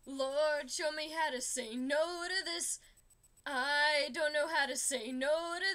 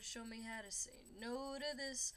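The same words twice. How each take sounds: First: Louder, pushed-out prayer. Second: Softer, held-back prayer; quiet prayer. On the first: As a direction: plead with the Lord at full voice. Second prayer verse, pushed hard. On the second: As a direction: pray it under your breath. First prayer verse, held back. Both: Pretend.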